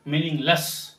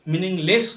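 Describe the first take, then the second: First: "मीनिंगलेस" ending in "luss"; correct pronunciation. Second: "मीनिंगलेस" ending in "less"; wrong pronunciation. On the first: Teacher correcting it, "मीनिंगलेस" with "luss". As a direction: schwa in the end of "मीनिंगलेस". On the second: Teacher showing what to avoid, "मीनिंगलेस" with "less". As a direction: clear e in the end of "मीनिंगलेस". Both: Shown as a demonstration. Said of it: "मीनिंगलेस नहीं".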